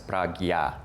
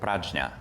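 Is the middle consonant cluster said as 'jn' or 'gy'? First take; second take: gy; jn. First: The middle cluster is said as 'gy'. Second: The middle cluster is said as 'jn'.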